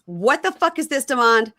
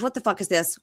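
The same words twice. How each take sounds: First: Higher, louder retold outburst; retold angry demand. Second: Said in the usual way. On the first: Woman confronting Demond over a surprise guest, retold angrily. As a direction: escalate into an indignant mock demand.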